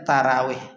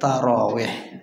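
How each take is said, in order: First: The r syllable is light, with a plain a. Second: The r syllable is heavy, with a rounded o. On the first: The speaker calls it wrong. "karena dah terbiasa nyebut ro ni dengan ra" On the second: The speaker calls it right. "Yang betul tarawih"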